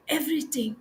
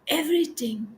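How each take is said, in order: First: Whisper. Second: Said in the usual way. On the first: Shown as a demonstration. Repeated word, now whispered.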